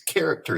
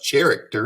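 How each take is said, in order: First: The word starts with a k sound. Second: The word starts with a non-k sound. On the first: The speaker calls it right. "It's the k sound" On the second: The speaker calls it wrong. "That's not character"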